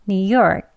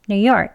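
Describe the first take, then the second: First: The phrase is said slowly and carefully. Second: The phrase is said quickly. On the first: "천천히 그리고 빨리 두 번씩 해볼게요" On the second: "빨리 할게요"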